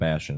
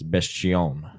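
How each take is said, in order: First: The name is said with a plain English pronunciation. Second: The name is said with a French-sounding pronunciation. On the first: "it's not Bastion" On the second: "Very French"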